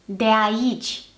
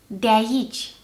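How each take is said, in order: Both takes have the same delivery.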